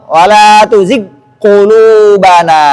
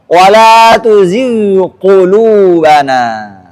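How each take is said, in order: First: The gh sound merges into a doubled q. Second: The gh sound is clearly heard before q. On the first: The speaker calls it wrong. "Itu idgham" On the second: The speaker calls it right. "Ghain harus jelas"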